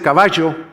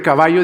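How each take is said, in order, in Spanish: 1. La doble L suena como 'sh'. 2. La doble L suena como 'y'. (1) "pronuncia la doble L como che" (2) "en lugar de caballo"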